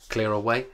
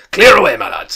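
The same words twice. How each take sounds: First: Said in the usual way. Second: Loud, high, hearty order; Fezziwig. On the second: A narrator's reading. Fezziwig to his lads, a jovial shout. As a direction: holler it jovially across the room. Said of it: "cried old Fezziwig".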